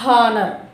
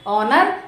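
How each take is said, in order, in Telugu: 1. ఈ పదం వినిపించే h ధ్వనితో మొదలవుతుంది. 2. ఈ పదం అచ్చుతో మొదలవుతుంది, h లేదు. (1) "it's not honor" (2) "So it's honor"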